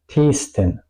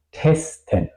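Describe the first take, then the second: First: Testen mispronounced with a long EE, like "teesten"; wrong long vowel. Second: Testen with a short, open E; short vowel. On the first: Teacher shows what not to say, long vowel. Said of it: "Yo no digo". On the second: Teacher corrects to the proper word, short vowel. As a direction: keep the first E of Testen short. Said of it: "La E es corta". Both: Shown as a demonstration.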